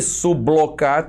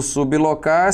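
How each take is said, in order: First: "sublocar" run together as su-blo-car, B blended into L; wrong syllable division. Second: "sublocar" in three separate pieces, SUB, LO, CAR, long pauses between; correct syllable division. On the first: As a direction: say "sublocar" with a BLO cluster, as in "bloco". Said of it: "sublocar tá errada". ("sublocar" emendado como su-blo-car, com o "blo" de bloco) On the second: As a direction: say "sublocar" syllable by syllable, closing the first on B. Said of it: "o correto do sublocar seria". ("sublocar" pausado em sílabas: sub... lo... car) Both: Shown as a demonstration.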